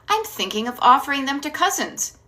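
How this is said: The voice falls at the end, like a statement.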